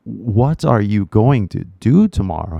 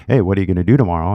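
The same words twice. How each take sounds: First: WHAT ARE YOU GOING TO DO TOMORROW with every word separate; careful full forms. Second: Very fast, words run together as "whadaya gonna do tomorrow"; fast casual reduction. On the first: Retold or imitated. Learner works out the fast question, carefully sounded out in full. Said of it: "But you're like". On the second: Shown as a demonstration. Someone casually asks a learner about tomorrow, fast and slurred together. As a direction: rattle off WHAT ARE YOU GONNA DO TOMORROW as one blur. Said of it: "not a lot of teachers that teach".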